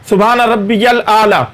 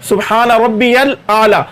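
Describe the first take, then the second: Both takes have the same delivery.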